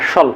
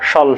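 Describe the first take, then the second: The two takes are said the same way.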